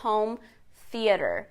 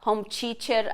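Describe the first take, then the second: First: Theater begins with a voiceless th sound. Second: Theater begins with a plain t sound. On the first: "in English you say home theater" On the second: "se você falar home teacher aqui no Brasil"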